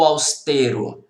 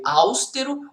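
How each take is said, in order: First: "austero" stressed on middle syllable, aus-TE-ro; tônica na penúltima. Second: "austero" stressed at the start, AUS-te-ro; tônica na primeira sílaba. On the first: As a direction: hit TE in "austero". ("austero" com a tônica no TE) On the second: ("austero" com a tônica no AUS) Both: Shown as a demonstration. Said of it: "austero e não austero".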